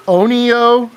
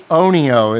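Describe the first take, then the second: First: "Onio" tried out as O-ni-o, rising like a question; unsure first try at "Onio", voice lifting at the end; tentative pronunciation. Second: "Onio" offered again as O-ni-o, a bit steadier; second attempt at pronunciation. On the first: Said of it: "I'm gonna attempt to pronounce your name". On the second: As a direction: try "Onio" once more as a suggestion. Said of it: "how about if I say". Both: Shown as a demonstration.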